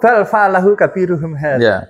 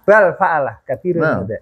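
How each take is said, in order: First: The phrase runs on without any break. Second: There is a break after the opening verb. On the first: The biggest one is the one who did it. "yang melakukan adalah yang paling besar" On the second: Someone did it; this is the big one. "Jadi pakainya pakai intonasi"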